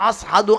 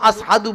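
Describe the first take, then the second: No difference in how they are said.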